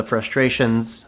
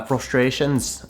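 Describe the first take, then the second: First: Said in the usual way. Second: Slow, slight Irish lilt; Irish accent. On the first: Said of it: "I don't know why I said that". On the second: Acted. Host correcting his own word, slipping into a light Irish accent. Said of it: "said that with an Irish accent".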